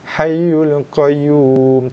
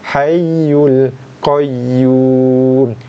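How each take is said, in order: First: The doubled y sound is short and unpressed. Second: The doubled y sound is pressed and held. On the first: The speaker calls it wrong. "tak cukup" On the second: The speaker calls it right. "tekankan bacaan pada huruf ya yang bersabdu"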